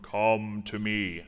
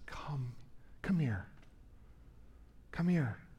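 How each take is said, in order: First: It sounds like a stern, commanding king. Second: It sounds like a gentle, caring mother.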